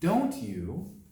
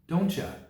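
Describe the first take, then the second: First: Both words are said fully and separately. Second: The second word is shortened and weak.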